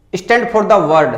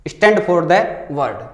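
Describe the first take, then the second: First: Words stretched out very slowly; very slow reading. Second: Very slow repeat. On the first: Teacher reading the question aloud to students, very slowly. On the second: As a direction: repeat the phrase slowly for them to follow. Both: Shown as a demonstration. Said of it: "अगला है".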